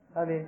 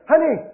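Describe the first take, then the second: First: It is said softly. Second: It is said very loudly.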